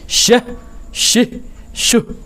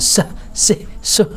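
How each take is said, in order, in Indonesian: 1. Setiap suku kata diawali dengan bunyi sh yang berhembus. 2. Setiap suku kata diawali dengan bunyi s biasa. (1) "itu namanya shin" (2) "Jangan sah sih suh. Nah, itu maksudnya sin"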